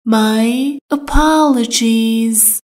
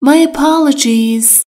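First: "My apologies" stretched out slowly syllable by syllable; slow it right down for learners; slow, careful. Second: Said in the usual way. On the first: Shown as a demonstration. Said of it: "teacher repeats slowly". (آهسته و شمرده) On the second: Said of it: "teacher models phrase".

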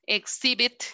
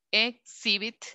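First: Said in the usual way. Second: "exhibit" split with a clear pause after "ex"; syllable by syllable. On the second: Shown as a demonstration. Teacher counting syllables for the class, "exhibit" said in separated pieces. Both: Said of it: "Exhibit tiene tres".

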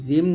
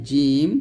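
First: "জিম" with a buzzing z, as zeem; z in place of j in "জিম"; wrong zim. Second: "জিম" with a firm j, as jeem; tongue middle on palate for the j of "জিম"; correct jeem. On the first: Teacher shows what many wrongly say, zim. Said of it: "এটা কিন্তু জিম না". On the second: Teacher corrects the z to jeem. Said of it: "এটা জিম". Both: Shown as a demonstration.

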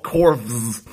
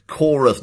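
First: Corvs said with a buzzing V instead of U; misread with a V. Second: Chorus said "KOR-us", with a U and no V. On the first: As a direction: pronounce corvs as one syllable, "korvz". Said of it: "not V". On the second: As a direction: pronounce Chorus as two syllables, "KOR-us". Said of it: "It, it's you, not V". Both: Shown as a demonstration.

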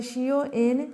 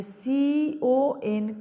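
First: Said in the usual way. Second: CON stretched very slowly letter by letter; teacher stressing a tricky spelling; drawn-out spelling. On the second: Shown as a demonstration. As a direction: hold each letter of CON long. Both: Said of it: "স্পেলিংটা কিন্তু খেয়াল রাখবে".

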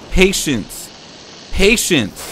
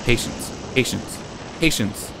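First: Higher, louder insistent patience; loud self-urging. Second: Said in the usual way. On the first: Real, not acted. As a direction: press it on yourself, louder. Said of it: "Patience. repeated louder". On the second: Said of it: "Patience. repeated as self-coaching".

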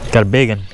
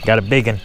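The two takes are said the same way.

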